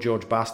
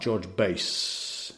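First: Bass is said with a short 'a', like gas. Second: Bass is said with a long 'a', like face. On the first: This is the name the person presumably has. The speaker calls it right. "I'm presuming you're called" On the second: This reading suggests a deep, low voice. The speaker calls it wrong. "How low can you go?"

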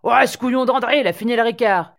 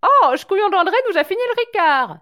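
First: It is said in a coarse, working-class bar voice. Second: It is said in a posh, courteous voice.

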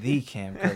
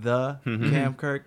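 First: 'The' is said with a long 'thee' vowel. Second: 'The' is said with a short 'thuh' vowel. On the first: It sounds self-important, like the one and only. "when I'm feeling egotistical" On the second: It sounds like the name of a business. "it feels more like a business"

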